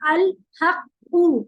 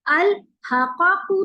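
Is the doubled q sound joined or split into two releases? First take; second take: joined; split. First: The doubled q is joined into one held sound. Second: The q is released twice with a vowel between. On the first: The speaker calls it right. "तो इसको हम जब पढ़ते हैं तो हम इसको कैसे पढ़ते हैं?" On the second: The speaker calls it wrong. "अल हकाकू तो नहीं पढ़ते ना हम"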